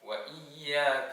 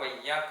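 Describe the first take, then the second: First: A glottal catch separates wa from iyyaka. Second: Wa slides straight into yyaka with no catch. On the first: The speaker calls it right. "ആ ഹംസ ഉച്ചരിക്കണം" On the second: The speaker calls it wrong. "വയ്യാക്ക എന്ന് പറഞ്ഞാൽ ശരിയാവുകയില്ല"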